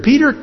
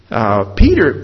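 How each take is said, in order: First: Peter with a much higher rising tune; high rising call. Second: Said in the usual way. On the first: Real, not acted. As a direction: lift Peter up high as a question. Repeats name, second rising.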